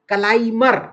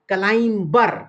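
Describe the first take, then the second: First: The b sound is silent after the m. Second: The b sound is pronounced after the m. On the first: The speaker calls it right. "ये actually है क्लाइमर।" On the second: The speaker calls it wrong. "अक्सर लोग बोलते हैं क्लाइंबर, जबकि ये बी silent है।"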